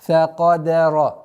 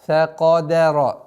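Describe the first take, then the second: The two takes are said the same way.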